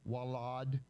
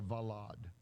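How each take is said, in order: First: The word begins with a W sound. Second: The word begins with a V sound. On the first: "some people pronounce it as a W sound" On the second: "I kind of stick with the v sound"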